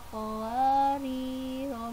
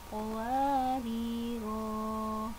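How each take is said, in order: First: The final vowel is kept short. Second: The final vowel is held long. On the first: The reader joins it to the next verse. "Jika diwasol maka ro-nya dibaca pendek" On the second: The reader stops at the end of the verse. "bila dibaca waqaf kanat qawariro, nah itu jika dibaca waqaf"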